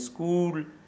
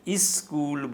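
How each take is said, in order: First: The word starts directly with the s-k cluster. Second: An extra vowel is added before the s-k cluster. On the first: "स्कूल लफ्ज़" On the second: "इस्कूल बोलते हैं"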